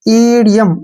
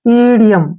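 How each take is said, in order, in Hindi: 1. शब्द 'ee' स्वर ध्वनि से शुरू होता है। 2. शब्द 'ee' स्वर ध्वनि से शुरू होता है।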